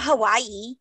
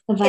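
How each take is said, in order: First: The middle consonant is a W sound. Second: The middle consonant is a V sound. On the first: The speaker calls it wrong. "It's not Hawaii" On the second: The speaker calls it right. "It's a V sound instead of a W"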